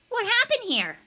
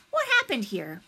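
First: High, pointed echo of a question; bully's challenge. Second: Measured question from a teacher; teacher's inquiry. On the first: Josh echoing the teacher at Niles, high challenge. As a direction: throw the question out, pitched way up. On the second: Miss Shandy asking Niles what he saw, measured inquiry. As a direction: ask it evenly, as the adult in charge. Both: A narrator's reading.

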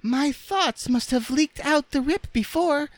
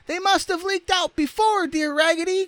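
First: Very high, squeaky rag doll; Raggedy Ann's voice. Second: Extremely high squeaky chorus; dolls crying out. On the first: Rag doll explaining to the others, squeaky. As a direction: speak in a small piping falsetto. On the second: Dolls agreeing with their friend, crying out. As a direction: pipe it up even squeakier, in falsetto. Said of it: "cried all the other dolls". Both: A narrator's reading.

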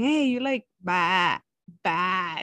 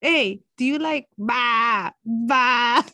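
First: Imitating a lamb. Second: Slow bleating "ba, ba"; lamb bleat imitation. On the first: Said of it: "So then I started going". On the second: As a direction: bleat it like a lamb, half laughing. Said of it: "She goes the same way as I did".

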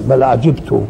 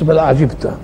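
First: بل عجبت with the final ت on a clear u, ajibtu; بل عجبت recited with damma on the last letter; damma reading. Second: بل عجبت with the final ت on a clear a, ajibta; بل عجبت recited with fatha on the last letter; fatha reading, Hafs. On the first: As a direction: end عجبت in -tu, Qur'anic recitation. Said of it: "وفي قراءة تانية بالضم". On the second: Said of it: "القراءة حفص". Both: Shown as a demonstration.

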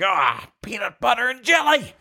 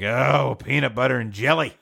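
First: High-pitched wail of despair; anguished outburst. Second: Mildly exasperated lunchbox complaint; dismayed. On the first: Polish worker opens the dreaded lunch, wailing. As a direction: wail it high, at the end of your rope. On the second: Polish worker finds his lunch, mildly dismayed. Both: Acted.

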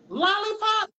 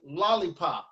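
First: Much higher, held questioning squeal; puzzled pupils' echo. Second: Said in the usual way. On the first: Acted. Students question the teacher's odd word, high puzzled echo. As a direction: imitate baffled kids echoing the teacher. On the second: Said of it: "I tell them to say".

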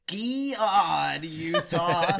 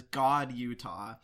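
First: "God" stretched into a loud, high "gee-od"; Busey's drawled GOD. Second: Said in the usual way. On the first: Retold or imitated. Podcaster imitating Busey's "God, Utah", "God" drawled as gee-od. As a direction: bend "God" into two long syllables, gee-od. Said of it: "is coming out of his mouth". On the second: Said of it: "'cause we had the subtitles on".

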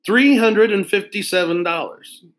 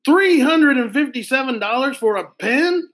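First: Stated higher, falling, matter-of-fact; proud price. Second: Much higher, rising outraged shout; can't believe the price, shout it up; shouted disbelief. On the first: Salesman telling the kids the pen's price, pleased. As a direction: announce the price as if it's a bargain. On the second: Boy shocked at a pen's price, shouting in disbelief. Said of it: "Arlo shouted". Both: Acted.

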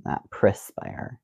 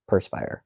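First: Perspire whispered prih-spire, slowly; whispered wrong way. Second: Perspire whispered per-spire; whispered right way. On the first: Host contrasting the wrong prih-spire, whispered. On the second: Host giving the correct per-spire, whispered. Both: Shown as a demonstration. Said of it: "Is how you say it correctly".

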